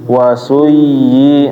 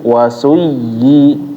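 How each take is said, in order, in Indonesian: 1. Bunyi y yang digandakan diucapkan biasa saja tanpa ditekan. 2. Bunyi y yang digandakan ditekan dengan sedikit naik. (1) "jangan wasuyyi. Nah, keliru ya" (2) "harus ditekan habis itu kayak nadanya naik sedikit"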